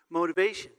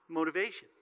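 First: Punched out louder the second time; louder repeat. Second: Said in the usual way. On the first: Shown as a demonstration. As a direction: hammer the word home.

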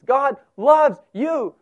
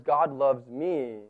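First: Loud, slow, high declaration; assured and emphatic, every word given room; confident. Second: Low, slow, reluctant admission; subdued and unsure, words coming slowly; hesitant. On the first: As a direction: proclaim it with full confidence. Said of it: "you can say it with confidence". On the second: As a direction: say it as if it is hard to believe. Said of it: "doesn't come off the lips quite as easily". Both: Shown as a demonstration.

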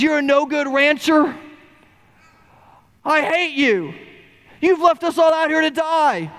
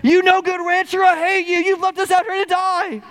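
First: Put-on first round of the boy's angry shout; angry yell. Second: Put-on the boy screaming his anger even harder; harder angry yell. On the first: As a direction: hurl it at the rancher. Boy yells at rancher. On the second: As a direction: push the shout to its peak.

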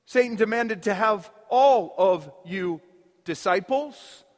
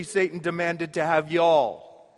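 First: Said in the usual way. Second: A hint of Mississippi folksy speech. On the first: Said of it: "or as they say in Mississippi". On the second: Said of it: "as they say in Mississippi".

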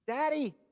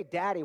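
First: Put-on "Daddy." said much higher, like a hurt little child; child calling daddy. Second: Said in the usual way. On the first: Shown as a demonstration. Preacher showing the congregation a child calling "Daddy." in a much higher voice. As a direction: call "Daddy." like a child who needs his father. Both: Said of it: "when you need something or when you're hurt".

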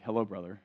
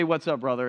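First: Lower, softer, stiff "Hello, brother."; a stiff, churchy hello that sounds weird; stiff formal greeting. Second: Easy, relaxed "What's up, brother?"; a laid-back, friendly hello; casual greeting. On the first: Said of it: "that sounds weird". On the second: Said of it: "it's a little bit better than". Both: Shown as a demonstration.

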